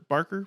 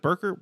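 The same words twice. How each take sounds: First: "Barker" with an open "ar", as in BARK; vowel as in "bark". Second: "Barker" said as BURKER, first vowel like "her"; vowel as in "burr". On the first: Co-host offering the other version of the name, "Barker" pronounced BARK-er. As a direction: say "Barker" with a clear "ah" before the r. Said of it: "like, like Clive Barker". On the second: Co-host checking which name is right, "Barker" pronounced BURKER. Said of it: "I've been saying both, uh, interchangeably". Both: Shown as a demonstration.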